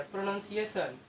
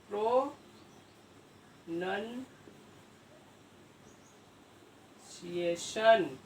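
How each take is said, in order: First: Said in the usual way. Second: pronunciation extremely slow, with long pauses between parts; pro... नन... सिएशन, dragged out piece by piece; syllable by syllable. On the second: Real, not acted. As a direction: spell out pronunciation by sound as you write it. Sounding out word while writing.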